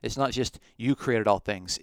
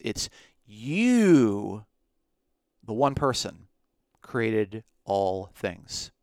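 First: Said in the usual way. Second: "you" punched loud, then "created all things" slowed way down; stress on you. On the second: Shown as a demonstration. Teacher insisting one person made everything, heavy "you". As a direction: hit "you" hard and let the rest crawl.

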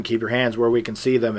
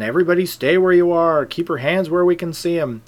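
First: Said in the usual way. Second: Raised, quick officer's order; retold urgent police order; police command. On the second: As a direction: call it out louder and higher, like police taking control.

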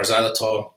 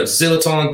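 First: First syllable of xylitol rhymes with "sigh"; alternative pronunciation. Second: First syllable of xylitol rhymes with "fill"; alternative pronunciation. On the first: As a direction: say XYLITOL with a long i, "ZY-li-tol". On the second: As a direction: say XYLITOL with a short first vowel, "ZIL-i-tol". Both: Shown as a demonstration. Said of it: "how do you say it".

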